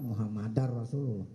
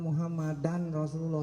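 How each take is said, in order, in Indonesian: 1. Bunyi n menyatu dengan r setelahnya. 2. Bunyi n terdengar jelas sebelum r. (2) "Enggak bagus"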